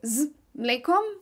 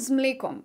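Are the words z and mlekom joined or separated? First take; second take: separated; joined. First: Z and mlekom are said as separate words. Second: Z and mlekom run together as one word. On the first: The speaker calls it wrong. "But you don't say z mlekom" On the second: The speaker calls it right. "you kind of connect it"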